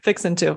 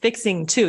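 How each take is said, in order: First: Fixing ends with a plain n sound. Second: Fixing ends with a full ng sound. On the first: The speaker calls it right. "You pronounce it fixin'" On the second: The speaker calls it wrong. "you don't pronounce it like fixing to"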